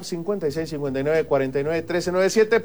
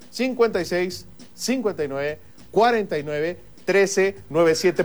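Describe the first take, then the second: First: The number is read at normal, quicker speed. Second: The number is read more slowly.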